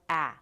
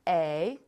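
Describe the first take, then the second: First: The vowel is short, as in 'cat'. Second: The vowel is long, like the letter name.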